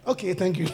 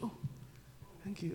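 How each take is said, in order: First: The thanks sounds casual and perfunctory. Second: The thanks sounds warm and deeply grateful.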